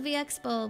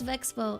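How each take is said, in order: First: The letter V is said apart from Expo. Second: The name is blended into one word, Vexpo. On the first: The speaker calls it wrong. "I always thought it was V Expo" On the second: The speaker calls it right. "but I guess it's Vexpo"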